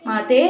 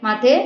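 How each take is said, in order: No difference in how they are said.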